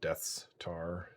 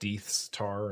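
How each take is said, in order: First: The first vowel is a short 'e' sound. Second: The first vowel is a long 'ee' sound. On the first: It is the speaker's own habit. "I always pronounce it Death's tar" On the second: Someone else said it this way. "bartenders pronounce it Deeth's tar"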